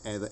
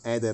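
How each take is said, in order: First: It is said with an English h and th. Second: It is said without h and with a d.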